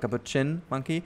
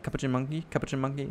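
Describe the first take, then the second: First: The word ends in a clear 'chin' sound. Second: The word is said quickly, like cappuccino. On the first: "the pronunciation leans toward the chin, like chin from like a person's chin" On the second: "like very quickly said, ... like almost like the coffee"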